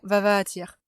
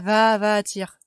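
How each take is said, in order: First: The A in the repeated syllable is short. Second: The A in the repeated syllable is long. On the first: The speaker calls it right. "C'est vraiment va va attire" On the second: The speaker calls it wrong. "C'est pas va va attire"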